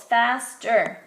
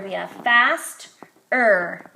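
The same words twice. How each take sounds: First: Faster split as fast-er, separated; syllables shown. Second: Faster said slowly in two clear beats, fast-er; slow fast-er for young learners; modelling two syllables. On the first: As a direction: clap out Faster in two beats. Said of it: "Two syllables". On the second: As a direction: draw out faster so both syllables ring. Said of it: "two-syllable word". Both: Shown as a demonstration.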